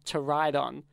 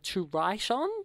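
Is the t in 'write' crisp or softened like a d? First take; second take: d-like; crisp. First: The t in write sounds like a d. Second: The t in write is a crisp t. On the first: "but they say to ride on" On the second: "Usually they'd say like to write on"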